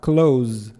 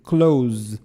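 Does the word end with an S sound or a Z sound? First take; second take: Z; Z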